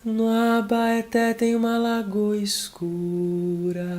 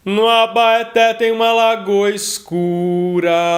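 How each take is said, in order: First: The voice is soft with extra audible breath. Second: The voice is metallic but darker. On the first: "acentuar ainda mais esse arzinho desse veludo... mais airado" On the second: "um timbre mais metalizado e mais escuro"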